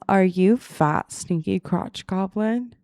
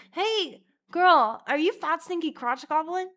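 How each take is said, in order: First: Loud, slow and drawn out; deliberate mock question. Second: High, bright-eyed loud call; high-pitched hailing. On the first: Imagining going up to a lookalike stranger, slow loud question. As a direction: ask it word by word, boldly. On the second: Acted. Calling out to a random stranger, high hailing voice. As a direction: call out in a high mock-friendly voice.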